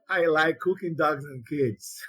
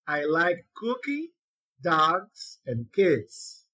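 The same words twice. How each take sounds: First: The words run together with no pauses. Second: Short pauses separate cooking, dogs and kids. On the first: The speaker likes to cook dogs and kids. The speaker calls it wrong. "E não diga" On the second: The speaker likes cooking, dogs and kids as separate things. The speaker calls it right.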